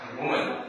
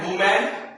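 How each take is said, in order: First: The last syllable is short and reduced. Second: The last syllable is a full 'man'. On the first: The speaker calls it right. "इसे करेंगे वुमन" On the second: The speaker calls it wrong. "He मैन, वुमैन, वुमैन नहीं"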